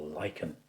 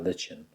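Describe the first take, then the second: First: "lichen" said LIKE-en, with a k sound; pronounced LIKE-en. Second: "lichen" said LITCH-en, with a ch sound; pronounced LITCH-en. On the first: Painting teacher offering another way, "lichen" as LIKE-en. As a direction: say "lichen" like "liken". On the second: Painting teacher unsure of the word, "lichen" as LITCH-en. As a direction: say "lichen" to rhyme with kitchen. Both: Shown as a demonstration. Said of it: "How do you say it?".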